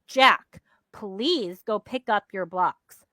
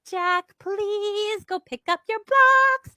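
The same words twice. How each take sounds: First: It is said in a grumpy, unkind tone. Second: It is said in an overly cheerful tone.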